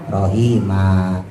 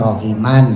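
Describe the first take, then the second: First: The word ends with a long vowel. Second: The word ends with an n sound.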